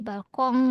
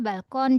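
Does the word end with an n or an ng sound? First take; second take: ng; n. First: The word ends with a nasal ng sound. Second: The word ends with a plain n sound. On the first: The speaker calls it right. "jadi balkong" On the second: The speaker calls it wrong. "Yang yang tadi kan masih apa? Balkon"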